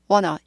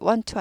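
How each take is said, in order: First: The words blend into one reduced word. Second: Both words are said fully and separately. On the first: The speaker calls it right. "튀는 발음 싫어하니까 wanna" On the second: The speaker calls it wrong. "want to 하다가"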